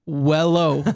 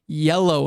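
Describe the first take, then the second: First: The word begins with a W sound. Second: The word begins with a Y sound. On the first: The speaker calls it wrong. "And I'm like, wello" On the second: The speaker calls it right. "She'd like bring me in front of class, like, no, yellow"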